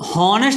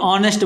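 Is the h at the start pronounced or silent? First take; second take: pronounced; silent. First: The word begins with an audible h sound. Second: The word begins directly with a vowel sound. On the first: The speaker calls it wrong. "हॉनेस्ट हम नहीं बोलते" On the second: The speaker calls it right. "ऑनेस्ट बोलते हैं"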